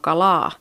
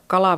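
First: The l sound is doubled and held long. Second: The l sound is short and single. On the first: This is how the dialect says it. "vaan kalaa. Tässä murteessa ominainen on tämmöinen konsonanttien kahdentuminen" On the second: This is not how the dialect says it. "Siellä ei sanota kalaa"

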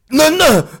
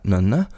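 First: It is said with a demanding, commanding tune. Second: It is said with a questioning tune. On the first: Open the balcony door. "öppna balkongdörren" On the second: Is that a balcony? "I olika tonfall. Alltså först så här, nönne, är det där en balkong?"

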